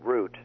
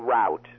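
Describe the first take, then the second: First: The vowel sounds like the one in boot. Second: The vowel sounds like the one in out. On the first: The speaker calls it right. "I say root, as in the root of all evil" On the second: The speaker calls it wrong. "other people say route"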